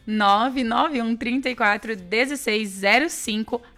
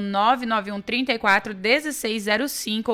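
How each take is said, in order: First: The number is said at a slower pace. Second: The number is said at a quicker pace.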